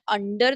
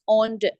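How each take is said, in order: First: The first vowel sounds like 'uh'. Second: The first vowel sounds like 'o'. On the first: The speaker calls it wrong. "Not under the table" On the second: The speaker calls it right. "it's under"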